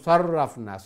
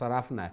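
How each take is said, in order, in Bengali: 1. r ধ্বনিটি দ্বিত্ব এবং একটু বেশি সময় ধরে উচ্চারিত হয়। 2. r ধ্বনিটি একক এবং ছোট।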